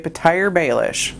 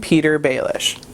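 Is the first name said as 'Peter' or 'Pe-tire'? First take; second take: Pe-tire; Peter. First: The first name ends with a 'tire' sound. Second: The first name sounds like plain 'Peter'. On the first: This is how the audiobook narrator says it. "the narrator refers to him as Petire" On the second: This is how the TV series says it. "They call him Peter Baelish"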